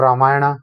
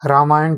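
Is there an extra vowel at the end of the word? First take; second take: yes; no. First: The word ends with an added 'a' vowel. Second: The word ends on a consonant sound. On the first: The speaker calls it wrong. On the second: The speaker calls it right.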